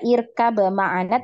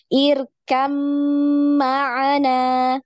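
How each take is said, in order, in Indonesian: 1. Bunyi b tetap dipertahankan sebelum ma'ana. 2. Bunyi b menyatu dengan m yang mengikutinya. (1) "kita tidak baca irkab ma'ana" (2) "tapi langsung irkam ma'ana"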